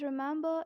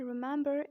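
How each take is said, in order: First: British "remember" with the final R dropped; British-accent demo of remember. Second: American "remember" with the final R sounded; American-accent demo of remember. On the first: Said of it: "Pronounce it as remember in British accent". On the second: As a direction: say remember the American way, R-coloured ending. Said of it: "in American accent". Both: Shown as a demonstration.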